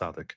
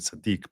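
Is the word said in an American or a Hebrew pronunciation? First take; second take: American; Hebrew. First: It is said with an American pronunciation. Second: It is said with a Hebrew pronunciation. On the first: "usually Americans say it's tzaddik" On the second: "it's actually in Hebrew tzaddik"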